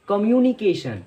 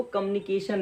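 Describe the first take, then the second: First: कम्युनिकेशन with a full 'myoo' glide; taught pronunciation. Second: कम्युनिकेशन squeezed to 'kamunikeshan'; wrong pronunciation. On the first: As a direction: say कम्युनिकेशन as 'ka-myoo-ni-kay-shan'. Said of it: "इसकी right pronunciation है". (कम्युनिकेशन में 'म्यू' साफ़ बोलकर) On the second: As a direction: say कम्युनिकेशन without the 'y' glide. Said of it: "इसको कम्युनिकेशन नहीं पढ़ते हैं". (कम्युनिकेशन को 'कमुनिकेशन' जैसा बोलें) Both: Shown as a demonstration.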